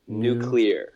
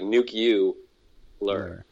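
First: No extra vowel comes between c and l. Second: An extra u sound comes between c and l. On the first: The speaker calls it right. "you just sound it out" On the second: The speaker calls it wrong. "there's this U put in there nuclear. Between the C and the L"

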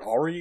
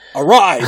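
First: The word ends with an 'ee' sound. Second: The word ends with an 'eye' sound. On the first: The speaker calls it wrong. "not how you pronounce that word" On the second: The speaker calls it right. "There we go! Yes!"

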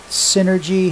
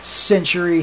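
First: The name sounds like the word synergy. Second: The name sounds like syntury, not synergy. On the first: The speaker calls it wrong. "Did you just say Synergy?" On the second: The speaker calls it right. "The correct pronunciation is Syntury"

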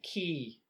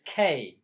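First: The syllable sounds like the word key. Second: The syllable sounds like the letter K. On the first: The speaker calls it wrong. "I pronounce it key" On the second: The speaker calls it right. "but it's K"

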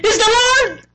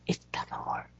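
First: It is shouted loudly. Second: It is said quietly, without shouting.

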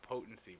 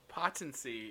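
First: The first syllable sounds like poe. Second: The first syllable sounds like the word pot. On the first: "Is like potency" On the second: "I said potency, ... but with pot"

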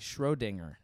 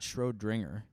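First: The name is said without an extra r sound. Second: The name is said with an extra r sound. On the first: The speaker calls it right. "Schrodinger, not Schrodinger" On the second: The speaker calls it wrong. "You're adding the R"

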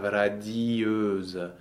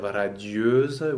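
First: The i and the vowel form two syllables. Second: The i glides into the vowel as one syllable. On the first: "you make out of one syllable, you make two syllables" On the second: "instead of radieuse"

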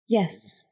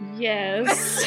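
First: It is whispered. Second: It is spoken aloud, reluctantly.

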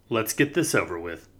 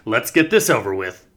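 First: It is said flatly, without feeling. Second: It is said with exaggerated feeling.

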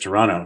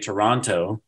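First: The t after the n is dropped. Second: The t after the n is clearly pronounced. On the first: The speaker calls it right. "He says Toronto. ... don't pronounce the T" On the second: The speaker calls it wrong. "Micheal does not say Toronto"

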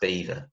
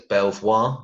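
First: It is said exactly like the word 'beaver'. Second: It is said as 'bel-vwar', following the spelling. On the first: The speaker calls it right. "apparently it's pronounced Beaver" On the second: The speaker calls it wrong. "Everybody else would read it as Belvoir"

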